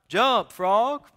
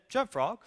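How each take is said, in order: First: It is said loudly, as a yell. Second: It is said at normal volume.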